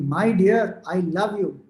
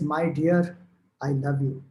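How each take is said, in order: First: It is said loudly. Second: It is said at normal, soft volume.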